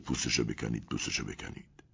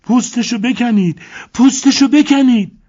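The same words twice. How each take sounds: First: Soft, low, fading to a whisper; muttered repetition. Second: Shrill-high, loud screaming plea. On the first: Elena repeating the phrase compulsively, softly whispered. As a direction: repeat it under your breath. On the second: Elena screaming at the crocodile owners, very high and loud. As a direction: scream it out of control. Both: A narrator's reading.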